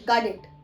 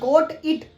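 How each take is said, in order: First: The t sounds like a d. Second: The vowel is a long 'oh' sound. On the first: "वो बोलते हैं गॉड it" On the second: "जब हम बोलते हैं ना गोट इट"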